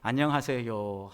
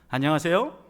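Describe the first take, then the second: First: The voice drops at the end, sounding deflated. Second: The voice rises at the end, sounding energetic.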